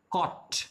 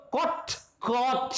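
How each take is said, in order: First: कॉट with a short, clipped o; कॉट as in cot, short vowel; short quick o. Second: कॉट drawn out with a long open o; कॉट as in caught, long vowel. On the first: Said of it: "ये fast बोला जाता है". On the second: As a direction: stretch the o in कॉट, slowly. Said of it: "दोनों में difference आ गया". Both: Shown as a demonstration.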